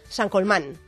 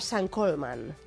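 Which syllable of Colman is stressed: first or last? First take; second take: last; first. First: The stress is on the last syllable of Colman. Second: The stress is on the first syllable of Colman. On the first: This is the Spanish-adapted form of the name. "para los de aquí, de la tierra, los de España" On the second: This is the name's original Irish form. "para nuestros amigos los irlandeses"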